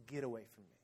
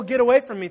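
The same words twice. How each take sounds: First: Very soft, low voice; guilt-laden plea. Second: Loud, raised mock protest; panicked refusal. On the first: Retold or imitated. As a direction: push him away quietly, weighed down by guilt. Peter, full of guilt, to Jesus. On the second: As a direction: shove him off with your voice. Mocking Peter's startled guilty reaction.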